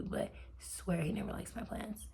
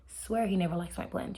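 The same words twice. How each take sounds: First: "swear he never likes my plans" breathed in a soft whisper; hushed, confiding whisper; whispered aside. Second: Said in the usual way. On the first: Shown as a demonstration. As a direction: drop to a secret whisper. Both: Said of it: "I'm gonna say that again".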